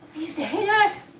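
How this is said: It is said with shock and dismay. It is felt as a shocking horror. "And I'm mortified"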